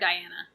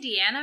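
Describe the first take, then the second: First: The first syllable sounds like 'dye'. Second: The first syllable sounds like 'dee'. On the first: The speaker calls it right. "it's obviously an I" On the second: The speaker calls it wrong. "a lot of people say Deanna"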